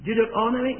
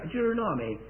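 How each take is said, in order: First: "Deuteronomy" as doo-ter-ON-omy; first pronunciation. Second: "Deuteronomy" as doo-ter-NOMMY; alternative pronunciation. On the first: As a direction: stress the ON in "Deuteronomy", unstressed ending. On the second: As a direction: squeeze "Deuteronomy" to end in NOM-ee. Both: Shown as a demonstration. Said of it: "How do you pronounce it here".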